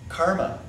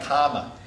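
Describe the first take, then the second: First: The r sound is clearly pronounced. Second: The r sound is dropped, Boston-style.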